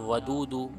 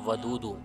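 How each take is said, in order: The two takes are said the same way.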